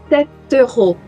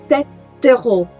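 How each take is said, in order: The two takes are said the same way.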